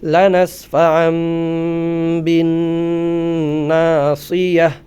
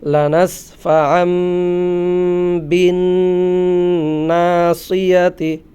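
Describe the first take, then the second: First: The last word ends in a silent h sound. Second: The last word ends in a voiced t syllable. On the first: The reader stops at this word. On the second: The reading continues without stopping.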